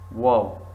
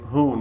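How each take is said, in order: First: Wow, the W sounded; who wrongly said as wow. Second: Who said hoo, W silent; right way. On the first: Teacher shows the wrong who as wow. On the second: Teacher contrasts who with wow. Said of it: "We say who, not wow". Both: Shown as a demonstration.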